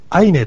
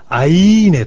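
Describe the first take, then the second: First: The word is said lightly and quickly. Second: The word is said with stretched emphasis. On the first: It simply states the result. "さらっとアイネと発音することもありますが" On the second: The narrator's feelings come into it. "少しこう強調された言い方"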